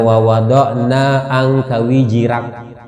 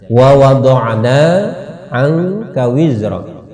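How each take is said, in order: First: The last word has a j-like sound with extra vowel. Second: The last word has a clear z sound. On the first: The speaker calls it wrong. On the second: The speaker calls it right.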